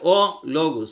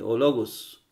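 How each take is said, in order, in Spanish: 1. El artículo se dice aparte del sustantivo. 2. El artículo se une al sustantivo como una sola palabra. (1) "no se pronuncia o logos" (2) "sino se hace o logos ... se hace una sola con la que sigue"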